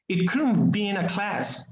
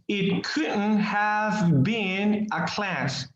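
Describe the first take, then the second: First: It is said fast, with the words run together. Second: Each word is said carefully and fully.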